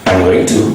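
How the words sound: It is said in full, going to.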